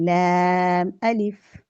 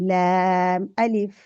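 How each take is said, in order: The two takes are said the same way.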